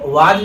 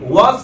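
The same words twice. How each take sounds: First: वाज ending in a hard 'j' sound; wrong 'was'. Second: First वाज ending in an 's' or 'z' sound; correct 'was'. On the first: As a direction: mispronounce was as वाज with a j. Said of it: "ना पढ़ा जाए". (वाज के अंत में 'ज') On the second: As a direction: say वाज as English was. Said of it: "वाज को वाज ना पढ़ा जाए". (वाज को was की तरह) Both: Shown as a demonstration.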